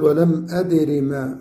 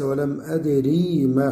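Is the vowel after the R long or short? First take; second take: short; long. First: The vowel after the R is short. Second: The vowel after the R is long. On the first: The speaker calls it right. "فنقول ولم أدر ما" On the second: The speaker calls it wrong. "وليس ولم أدري ما"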